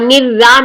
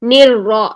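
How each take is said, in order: First: The r is light, with a thin front vowel. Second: The r is heavy, with a full deep vowel. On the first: The speaker calls it wrong. "निर-रा नहीं करना" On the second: The speaker calls it right. "रॉ मोटी"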